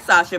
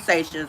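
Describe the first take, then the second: First: Sasha said SAH-sha, open ah; wrong Sasha. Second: Sasha said SAY-sha, long ay; right Sasha. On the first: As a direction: Sasha with a broad ah in the first syllable. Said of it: "but her name is Sasha". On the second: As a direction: Sasha with the ay sound as in say. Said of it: "her name is Sasha". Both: Shown as a demonstration.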